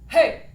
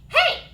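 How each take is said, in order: First: A strong, full chest voice at speaking pitch. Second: A bratty, whinier voice at slightly higher pitch. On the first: "our strong foundation chest voice" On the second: "a bratty little kid saying, hey ... slightly higher pitch and slightly whinier"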